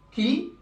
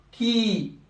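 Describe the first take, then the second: First: "qui" with a short i; short syllable. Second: "qui" with the i held for two beats; long syllable. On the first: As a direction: cut the vowel of "qui" to one beat. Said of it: "Syllabe courte". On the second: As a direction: stretch "qui" into a long kee. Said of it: "c'est des syllabes longues". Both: Shown as a demonstration.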